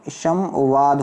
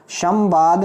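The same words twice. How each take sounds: First: संवाद said slowly as sham-vaad; v in the middle of संवाद; correct form. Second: संवाद said slowly as sham-baad; b in the middle of संवाद; wrong form. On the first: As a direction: stretch संवाद with clear vaad. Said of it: "होता है". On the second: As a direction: mispronounce संवाद with a b. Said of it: "नहीं". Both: Shown as a demonstration.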